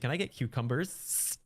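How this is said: The final S is dragged out, Californian style.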